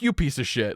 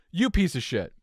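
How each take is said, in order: First: Said in the usual way. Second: Hissed under the breath; whispered insult. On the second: Retold or imitated. Driver muttering at crashed BMW, whispered. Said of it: "Like, and".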